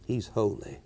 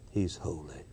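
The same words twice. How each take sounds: First: Soft, lower reverent statement; a reverent murmur; solemn hush. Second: Much lower and much softer; almost breathe it out; a fading reverent hush; near-whispered awe. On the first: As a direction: let it fall quietly. Repeated solemn refrain. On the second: Repeat fades further. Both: Real, not acted.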